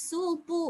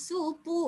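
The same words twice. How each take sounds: The two takes are said the same way.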